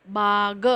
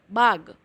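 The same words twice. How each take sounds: First: बाग stretched into "baa-ga"; sounded-out pronunciation. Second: Said in the usual way. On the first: Shown as a demonstration. Teacher joining letter and vowel sign, बाग split "baa-ga". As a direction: sound out बाग slowly in two parts. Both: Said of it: "इसका उच्चारण".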